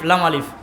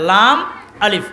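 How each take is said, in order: First: The two names are run together as one. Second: The two names are said as separate words. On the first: It is treated as a single letter. The speaker calls it wrong. "আমরা গতানুগতিক পড়তে পড়তে বলে ফেলাই লাম আলিফ" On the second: It is treated as two letters. The speaker calls it right. "দুইটা হরফ"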